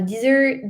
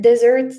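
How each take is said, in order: First: "desert" with an "ih" first vowel, dih-ZERT; "desert" sounded like "dizzert"; first pronunciation of desert. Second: "desert" as DEZ-ert, louder; "desert" said DEZ-ert, punched out; second pronunciation of desert. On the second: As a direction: correct yourself to "desert" with an "eh" first vowel. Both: Real, not acted. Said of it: "Do you say desert or desert?".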